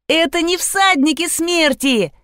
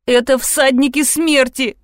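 First: High, gleeful correction; excited child. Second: Mildly fearful announcement; tearful fright. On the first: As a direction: bounce through it like a happy girl. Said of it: "запрыгала Лизавета". (радостно, высоким детским голосом) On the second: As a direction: reveal it in dread, stressing "смерти". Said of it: "Из моих глаз хлынули слёзы". (испуганно, почти плача) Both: A narrator's reading.

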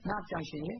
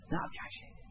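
First: Said in the usual way. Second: Hushed, breathy repeat of the question; a voiceless whisper, as if in his ear. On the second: Acted. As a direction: lean in and whisper it to the dying man.

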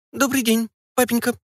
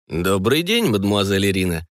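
First: Put-on high little squeak of a girl; a daughter squeaking hello with eyes lowered; shy squeak. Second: Level, courteous officer's hello; polite greeting. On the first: Daughter shyly greeting her father, high squeaky girl's voice. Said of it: "пискнула, опустив очи долу Ольга". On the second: Acted. Colonel politely greeting his daughter's guardian, lightly voiced courtesy. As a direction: greet her correctly, an officer's manners. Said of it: "вежливо ответил".

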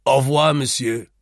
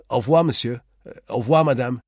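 First: Loud, mocking au revoir with a far-off sneer; ironic farewell. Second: Said in the usual way. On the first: A narrator's reading. The seated man mocks the leaving narrator with an ironic farewell. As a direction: send him off with open irony. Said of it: "he said ironically".

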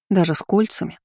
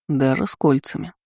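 First: A touch of a sulky grumble; grumbling. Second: Mildly stern confirmation. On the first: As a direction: mutter it, lightly put out. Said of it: "буркнула Ди". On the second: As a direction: say it firmly, a touch strict. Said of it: "строго подтвердил Марко". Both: A narrator's reading.

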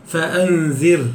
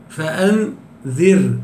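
First: Said in the usual way. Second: فأنذر drawn out very slowly, the final ر held silent and thin; slow recited demo. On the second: Shown as a demonstration. Teacher showing students how to stop on فأنذر, slow recitation. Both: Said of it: "هكذا".

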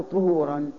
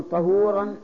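First: "طهورا" with a short u after ط; damma on ṭā'. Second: "طهورا" with a short a after ط; fatha on ṭā'. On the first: Teacher offering students the other reading, damma on ط in "طهورا". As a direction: say "طهورا" as ṭuhūran. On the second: Teacher quizzing grammarians on the word, fatha on ط in "طهورا". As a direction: say "طهورا" as ṭahūran. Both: Shown as a demonstration. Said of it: "طهورا بفتح الطاء".

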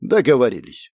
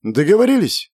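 First: Easy agreement. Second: "Договорились" as a question, pitched up. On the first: Innkeeper takes the guest's money, easily agreeing. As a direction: accept it without fuss. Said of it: "легко согласился хозяин". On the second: Guest closing a deal with innkeeper, questioning "Договорились". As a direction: raise "Договорились" high, asking for agreement. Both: A narrator's reading.

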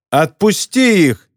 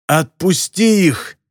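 First: Slow, higher-pitched firm demand; louder, throat cleared. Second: Slow, higher-pitched croaking demand; hoarse croak. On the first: Captive girl repeats her demand to the captor, louder. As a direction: project the demand, drawing it out. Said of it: "откашлялась и уже громче повторила". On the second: Captive girl demands her friends' release, hoarse croak. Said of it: "хрипло прокаркала она". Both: A narrator's reading.

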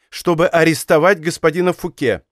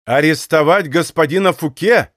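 First: Said in the usual way. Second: Astonished echo, a bit louder; raised voice. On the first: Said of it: "Д'Артаньян от изумления". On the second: A narrator's reading. Captain echoing the king's order, amazed and louder. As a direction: throw the words back in disbelief. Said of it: "возвышая голос".

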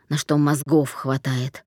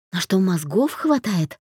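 First: Low, slow, contemptuous «мозгов»; dismissive. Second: Bewildered. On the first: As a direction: lean on «мозгов» with scorn, lower and slower. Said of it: "пренебрежительно сказал он". (пренебрежительно, медленно, ниже) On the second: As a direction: echo the words back in confusion. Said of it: "растерянно переспросила Даша". (растерянно переспрашивает) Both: A narrator's reading.

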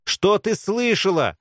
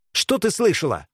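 First: Slow, high, menacing demand; threatening repeat. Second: Sharp, higher demand; menacing. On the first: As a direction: stretch it out as a threat. (медленно, с угрозой) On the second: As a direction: demand an answer at once. (резко, с угрозой) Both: A narrator's reading. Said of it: "с угрозой повторила Белка".

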